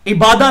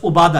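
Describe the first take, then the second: First: The word begins with an 'i' vowel sound. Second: The word begins with a 'u' vowel sound. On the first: "अब हम ये इबादा लफ्ज़ बोलते हैं" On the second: "लफ्ज़ उबादा है"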